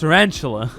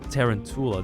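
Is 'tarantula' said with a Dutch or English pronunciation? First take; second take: English; Dutch. First: The word is pronounced the English way. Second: The word is pronounced the Dutch way.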